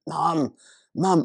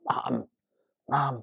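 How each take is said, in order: First: It is whispered a bit louder. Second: It is whispered very softly.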